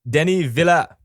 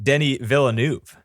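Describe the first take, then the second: First: The surname's final letters are left silent. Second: The surname's final letters are fully sounded. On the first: The speaker calls it right. "all those extra letters at the end there, you apparently don't pronounce them" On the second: The speaker calls it wrong. "his name isn't pronounced Denny Villeneuve"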